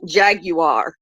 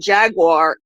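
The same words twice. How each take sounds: First: It is said in a British accent. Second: It is said in an American accent. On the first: "a Briton saying jaguar" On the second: "an American saying jaguar"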